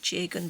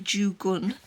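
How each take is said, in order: First: The first syllable sounds like 'jay'. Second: The first syllable sounds like 'joo'. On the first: "I would have said" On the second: "You just pronounce it apparently"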